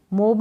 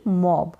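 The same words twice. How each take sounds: First: मोब with a closed "oh" vowel; wrong long-o reading. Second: मॉब with an open "aw" vowel; open-o pronunciation. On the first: Teacher rules out a misreading, closed-o मोब. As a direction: say मोब as "mohb". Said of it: "मोब नहीं". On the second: Teacher corrects the misreading, open-o मॉब. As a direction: say मॉब as "mawb". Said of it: "मोब नहीं मॉब". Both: Shown as a demonstration.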